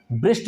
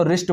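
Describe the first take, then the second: First: ब्रिस्ट with a B sound added at the start; wrong pronunciation. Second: रिस्ट with the W silent, starting on R; correct pronunciation. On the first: Teacher showing students the wrong way to say wrist. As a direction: say ब्रिस्ट with an extra B in front. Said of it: "नहीं बोलेंगे". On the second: Teacher showing students the right way to say wrist. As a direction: say रिस्ट beginning straight on the R. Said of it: "इसको रिस्ट बोलेंगे". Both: Shown as a demonstration.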